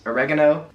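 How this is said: It is said with an American pronunciation. "as we say in the U S"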